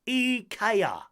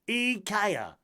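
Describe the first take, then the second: The two takes are said the same way.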